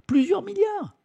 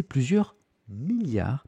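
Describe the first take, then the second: First: "plusieurs milliards" jumps far higher, astonished; amazed emphasis. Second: Said in the usual way. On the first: Shown as a demonstration. Streamer repeats the sum of money in high-pitched disbelief.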